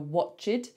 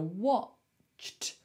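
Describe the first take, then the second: First: An extra vowel sound comes before the final t. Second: The ch goes straight into the final t. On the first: The speaker calls it wrong. "People want to say the E, they want to go watched" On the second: The speaker calls it right. "it's just a cht"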